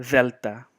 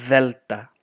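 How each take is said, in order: No difference in how they are said.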